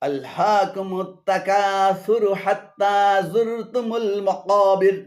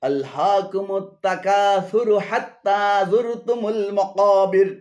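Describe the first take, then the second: The two takes are said the same way.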